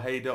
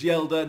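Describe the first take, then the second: First: The name begins with an H sound. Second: The name begins with a Y sound. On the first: The speaker calls it wrong. "not Haider or Haider or however I was pronouncing it" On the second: The speaker calls it right. "I believe it's Yelder"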